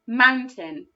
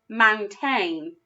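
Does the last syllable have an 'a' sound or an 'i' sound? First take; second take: i sound; a sound. First: The last syllable is said with an 'i' vowel. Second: The last syllable is said with an 'a' vowel. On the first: The speaker calls it right. "when that A grapheme is making the I sound" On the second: The speaker calls it wrong. "Doesn't sound right to me"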